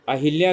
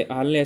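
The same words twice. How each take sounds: First: अहिल्या with a clear इ after ह, a-hi-lya; wrong spelling said aloud. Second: अहल्या with a short schwa after ह, a-ha-lya; correct form. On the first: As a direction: say अहिल्या as the wrong form, stressing hi. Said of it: "अहिल्या गलत है". (अहिल्या, ह के बाद साफ़ इ के साथ) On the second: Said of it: "अहल्या सही है". (अहल्या, ह के बाद छोटा अ, इ नहीं) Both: Shown as a demonstration.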